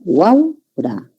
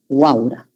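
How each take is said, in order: First: "Guaura" slowly split as guau-ra; syllable by syllable. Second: Said in the usual way. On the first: Shown as a demonstration. Teacher pointing out the triphthong, "Guaura" drawn out as guau-ra. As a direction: hold "guau" as one syllable, then a separate "ra" in "Guaura".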